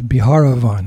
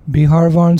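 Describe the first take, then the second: First: An extra vowel comes between 'har' and 'van'. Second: No vowel comes between 'har' and 'van'. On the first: "sometimes Biharavan" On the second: "Sometimes it's said Biharvan"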